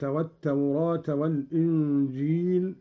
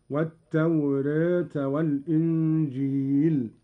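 First: Said in the usual way. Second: والتوراة with ā tilted toward e; taqlil of the alif. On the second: Shown as a demonstration. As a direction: recite والتوراة as wat-tawrēta. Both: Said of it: "بفتح التوراة وتقليلها".

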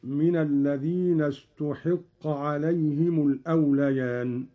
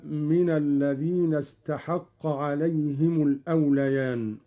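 First: استحق recited as ustuḥiqqa, with u then i; Qalun's passive reading. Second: Said in the usual way. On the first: Shown as a demonstration. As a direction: give استحق a damma on t and kasra on ḥ. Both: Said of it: "مبنيا للمجهول".

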